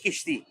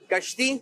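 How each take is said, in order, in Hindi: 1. पहले अक्षर में 'i' स्वर है। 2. पहले अक्षर में 'a' स्वर है। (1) "इन दोनों में से एक सही है" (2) "दुरुस्त जवाब जो है वो है कश्ती"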